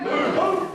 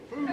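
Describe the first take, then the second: First: Poof called out high and loud; loud magic word. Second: Said in the usual way. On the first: Shown as a demonstration. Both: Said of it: "to say the magic word".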